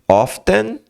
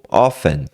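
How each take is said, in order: First: The T sound is clearly pronounced. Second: The T sound is left silent. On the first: "Você pode falar o T" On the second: "ou pode não falar"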